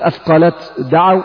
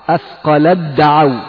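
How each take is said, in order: First: The t is pronounced separately before the d. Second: The t is merged into the following d. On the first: The speaker calls it wrong. "لا تقول" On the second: The speaker calls it right. "تكون بالإضغام"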